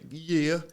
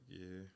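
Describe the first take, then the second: First: It is said with excited, lively energy. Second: It is said flatly, with low energy.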